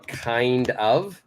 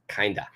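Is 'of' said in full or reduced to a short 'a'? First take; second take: full; reduced. First: The word 'of' is said in full. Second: The word 'of' is reduced to a short 'a'. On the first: This is the written form. "that's how we write it" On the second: This is how it is said in speech. "pronunciation means kinda"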